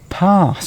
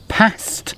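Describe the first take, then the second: First: The vowel is a long open 'ah'. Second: The vowel is a short flat 'a'. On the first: "or an R sound" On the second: "with an A sound"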